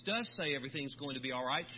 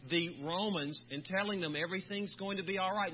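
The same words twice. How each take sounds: First: Does lifted and leaned on, rising; emphatic does, rest of the line plain; stress on does. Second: Said in the usual way. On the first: Shown as a demonstration. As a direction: push the word does to confirm it.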